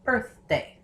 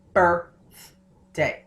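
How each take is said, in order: First: "birthday" in two beats, birth then day; correct syllable break. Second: "birthday" broken apart with the "th" cut off from "bir"; wrong syllable break. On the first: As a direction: say "birthday" split cleanly after the "th". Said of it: "I say birthday". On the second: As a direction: say "birthday" as bir, th, day, in separate pieces. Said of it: "I don't say birth". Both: Shown as a demonstration.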